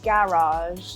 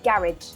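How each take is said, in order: First: It uses the speaker's usual British pronunciation. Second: It uses a London-area pronunciation. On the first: "I would say garage" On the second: "if you were going to London area, people would say garage"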